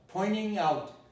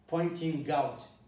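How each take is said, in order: First: The t in pointing merges into the n. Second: The t in pointing is clearly pronounced. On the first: The speaker calls it right. "You should listen to me and say pointing out" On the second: The speaker calls it wrong. "you shouldn't say pointing out"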